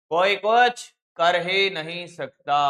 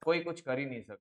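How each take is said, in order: First: Slow, louder, stress on कुछ; slow firm emphasis. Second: Said fast and softer, thrown away; quick aside. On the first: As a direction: lean on कुछ and spell it out slowly. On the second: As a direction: rush it under your breath. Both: Shown as a demonstration.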